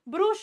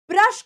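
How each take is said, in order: First: Brush has a rounded vowel, as in put. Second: Brush has a short vowel, as in but. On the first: The speaker calls it wrong. "ब्रुश नहीं" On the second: The speaker calls it right. "ब्रश करना"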